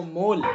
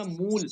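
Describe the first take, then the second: First: "مول" said as mol; "مول" with the vowel of "mole"; majhool waw. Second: "مول" said as muul; "مول" rhyming with English "pool"; maruf misreading. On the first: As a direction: give "مول" a long "o", not "oo". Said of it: "مجہول ہے". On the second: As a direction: give "مول" a long "oo" vowel. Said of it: "معروف طریقے سے تو کہو گے". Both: Shown as a demonstration.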